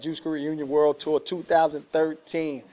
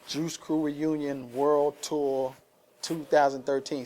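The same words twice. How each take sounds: First: The phrase is said quickly. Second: The phrase is said at a normal pace.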